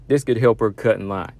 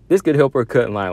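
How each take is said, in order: First: Said in the usual way. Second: "This" hit higher and louder; emphatic repeat. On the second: Shown as a demonstration. Analyst hammering his point home, louder. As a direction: punch "This could help her cut in line" harder.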